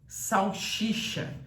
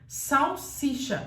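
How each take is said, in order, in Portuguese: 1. A segunda sílaba começa com o som de 'sh'. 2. A segunda sílaba começa com o som de 's'. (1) "Não existe salsicha" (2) "Existe salsicha"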